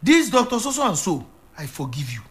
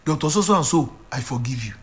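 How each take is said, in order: First: A pastor gently feeding a grieving father his line of forgiveness; coaching the words. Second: Mild tearful repeating. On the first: Shown as a demonstration. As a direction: lead him through it like a prompt he can repeat. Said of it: "All you have to do is to say from your heart". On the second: Retold or imitated. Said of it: "And he began to repeat".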